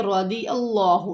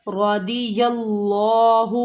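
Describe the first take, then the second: First: رضی اللہ with the ya swallowed, slightly slow; wrong pronunciation demo. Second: رضی with a heavy ra and clear ya, اللہ drawn out; correct tajweed reading. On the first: Teacher imitates students' mistake, lightly slowed. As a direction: show the mistake: رضی اللہ without a clear ya. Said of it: "یہ اللہ نہیں، یا ہے". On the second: Teacher models the right reading for students, slow. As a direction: say رضی اللہ slowly with a full ra. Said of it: "را موٹا پڑھا جائے گا". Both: Shown as a demonstration.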